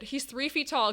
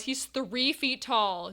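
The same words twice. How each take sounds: First: Said in the usual way. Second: THREE stretched out, the whole phrase slow; emphatic THREE. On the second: Real, not acted. Streamer stresses the penguin's height to chat, slow emphatic THREE.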